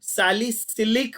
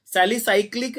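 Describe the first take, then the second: First: The right form सैलिसिलिक, carefully and slowly; correct name. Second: The misprinted सैलिसाइक्लिक, sa-li-saik-lik; wrong textbook form सैलिसाइक्लिक, said firmly; wrong name. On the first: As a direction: say सैलिसिलिक as sa-li-si-lik, no extra syllable. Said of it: "सैलिसिलिक होता है". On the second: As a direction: say सैलिसाइक्लिक with an extra syl sound in the middle. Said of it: "सैलिसाइक्लिक नहीं होता". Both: Shown as a demonstration.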